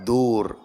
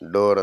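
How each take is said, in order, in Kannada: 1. ಈ ಸ್ವರ ದೀರ್ಘವಾದ 'oo' ಶಬ್ದ. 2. ಈ ಸ್ವರ 'oh' ಶಬ್ದ. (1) "ಕನ್ನಡದ ಉಚ್ಚಾರಣೆ ಡಿ ಡಬಲ್ ಓ ಆರ್" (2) "ಪಾಶ್ಚಾತ್ಯರು ಬಾಗಿಲಿಗೆ ಹೆಸರಿಟ್ಟದ್ದು ಡೋರ್ ಅಂತ"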